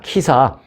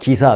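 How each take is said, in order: First: The first consonant is strongly aspirated, like k. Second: The first consonant is softer, not a strong k. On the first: "야, 키사, 발음해봐" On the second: "키까지는 아니어도 기사 해봐"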